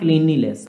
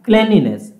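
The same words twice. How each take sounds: First: The first syllable has a long vowel, like 'clean'. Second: The first syllable has a short vowel, like 'clen'. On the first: The speaker calls it wrong. "not cleanliness" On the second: The speaker calls it right. "Cleanliness, not cleanliness"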